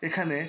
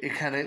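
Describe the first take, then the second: The two takes are said the same way.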